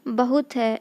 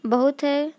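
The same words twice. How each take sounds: No difference in how they are said.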